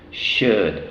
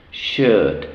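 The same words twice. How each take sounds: The two takes are said the same way.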